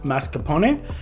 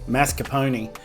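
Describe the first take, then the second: First: It is said with an Italian-style pronunciation. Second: It is said with an Australian-style pronunciation. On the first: The speaker calls it right. "this is the way they say it" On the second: The speaker calls it wrong. "with this Australian accent"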